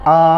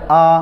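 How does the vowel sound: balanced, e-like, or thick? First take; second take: thick; thick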